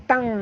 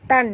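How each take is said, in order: First: The syllable ends in a nasal ng sound. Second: The syllable ends in a plain n sound. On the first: The speaker calls it right. "T A N G tang ya" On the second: The speaker calls it wrong. "bukannya tan ya"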